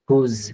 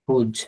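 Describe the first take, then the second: First: The word ends in a soft 'z' sound. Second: The word ends in a hard 'j' sound. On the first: The speaker calls it right. "কিন্তু উচ্চারণটা হবে হুজ ... নরম করে উচ্চারণ হবে" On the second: The speaker calls it wrong. "আপনারা অনেকেই পড়বেন হুজ"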